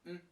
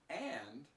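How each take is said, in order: First: The word is only a short, low n sound. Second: The word is said in full with a vowel. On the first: "It's just an N sound, a very short N sound" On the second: "When we speak slowly and clearly, we might pronounce and"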